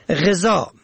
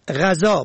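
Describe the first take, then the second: First: غذا said "ghezaa"; kasra on first syllable. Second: غذا said "ghazaa"; fatha on first syllable. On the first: Presenter teaching two readings of one word, غذا as "ghezaa". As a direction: open غذا with short e. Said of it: "به کسر اول". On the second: Presenter teaching two readings of one word, غذا as "ghazaa". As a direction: open غذا with short a. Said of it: "به فتح اول". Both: Shown as a demonstration.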